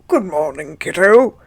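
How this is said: It is said in a put-on Hagrid voice.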